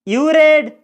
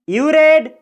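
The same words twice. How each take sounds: Both takes have the same delivery.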